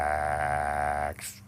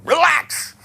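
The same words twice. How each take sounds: First: Slow, drawn-out, lower "Relax". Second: "Relax" snapped out fast, high and loud; "Relax" blurted high and fast; quick relax. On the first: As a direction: stretch "Relax" out long and soothing. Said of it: "And drag the word out". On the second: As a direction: fire off "Relax" fast and high, all tension. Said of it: "if you say it too fast". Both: Shown as a demonstration.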